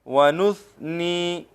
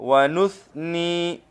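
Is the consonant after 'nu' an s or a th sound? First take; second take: th; th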